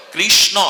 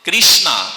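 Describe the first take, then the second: First: কৃষ্ণ with a short o ending; correct pronunciation. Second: কৃষ্ণা with a long final a; wrong pronunciation. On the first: Preacher demonstrating কৃষ্ণ for the audience, with an o ending. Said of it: "অটা বলুন". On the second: Preacher showing the wrong কৃষ্ণা to contrast, with a final a. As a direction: stretch কৃষ্ণা ending in a. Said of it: "কৃষ্ণা বলুন". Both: Shown as a demonstration.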